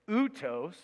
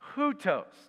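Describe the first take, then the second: First: The word starts on a vowel, without h. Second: The word starts with a breathy h sound. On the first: The speaker calls it wrong. "you don't say outos" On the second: The speaker calls it right. "You put a little h on it"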